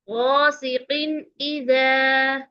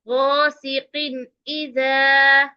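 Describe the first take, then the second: The two takes are said the same way.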